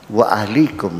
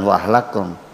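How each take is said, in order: First: The vowel after 'ahl' is an 'i'. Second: The vowel after 'ahl' is an 'a'. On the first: The speaker calls it right. "wa ahlikum bukan wa ahlakum" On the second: The speaker calls it wrong. "bukan wa ahlakum"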